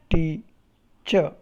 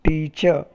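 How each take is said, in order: First: "teacher" broken into tea, pause, cher; syllable by syllable. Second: Said in the usual way. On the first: Shown as a demonstration. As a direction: separate the two syllables of "teacher". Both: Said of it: "If you pronounce it correctly".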